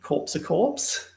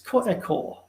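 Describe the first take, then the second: First: It is said with a broad Australian pronunciation. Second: It is said with a French-style pronunciation.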